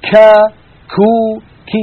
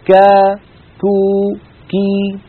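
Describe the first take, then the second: First: Each consonant is released with a large breath. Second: Each consonant is released with a slight breath. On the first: The speaker calls it wrong. "مبالغة ... كمية متدفقة من النفس زائدة جدا" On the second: The speaker calls it right. "حتى المتحرك منها فيه همس خفيف"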